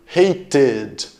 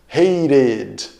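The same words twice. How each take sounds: The two takes are said the same way.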